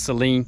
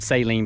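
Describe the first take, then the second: First: It is said in the standard way. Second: It is said in a Southern US way. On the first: The speaker calls it right. "but I know it's Saline" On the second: The speaker calls it wrong. "I'm deep South, y'all... I've always said saline"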